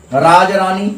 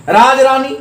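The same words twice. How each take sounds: First: Said in the usual way. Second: राजरानी lifted high with the weight on रानी; teacher lifts रानी in राजरानी; stress on रानी. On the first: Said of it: "राज पर नहीं होगा". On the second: Shown as a demonstration. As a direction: push रानी, keep राज light. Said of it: "बल्कि रानी पर होगा".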